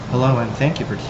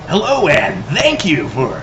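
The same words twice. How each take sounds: First: It is said in a calm public-radio announcer voice. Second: It is said in a punchy rock-radio DJ voice. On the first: "That's my N P R voice" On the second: "did rock radio voice"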